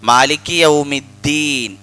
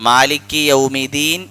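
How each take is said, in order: The two takes are said the same way.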